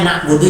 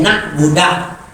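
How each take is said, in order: First: The word ends with a u vowel. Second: The word ends with an a vowel. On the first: The speaker calls it right. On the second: The speaker calls it wrong.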